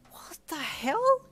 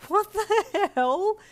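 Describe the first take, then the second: First: Slow, breathy, rising high; gasped disbelief. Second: Drawn-out, high, loud cry; laughing yell. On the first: Player reaching for the ice ball, gasping. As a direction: gasp it out in shock. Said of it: "you gasped". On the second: Player under a hail of snowballs, laugh-yelling. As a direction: yell it slowly in amused disbelief. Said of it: "you laugh yelled". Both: A narrator's reading.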